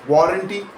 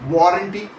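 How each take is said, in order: Both takes have the same delivery.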